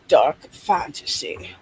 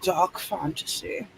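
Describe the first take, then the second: First: Said in the usual way. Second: Dark fantasy said slow and soft, sinking low; ominous dark fantasy. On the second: Shown as a demonstration. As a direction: draw out Dark fantasy like a spooky trailer. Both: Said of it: "Don't you wanna say it like that?".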